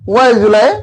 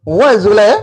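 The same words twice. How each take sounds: Both takes have the same delivery.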